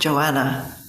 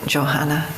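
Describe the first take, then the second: First: The name is pronounced the English way. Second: The name is pronounced the German way. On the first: The speaker calls it right. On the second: The speaker calls it wrong.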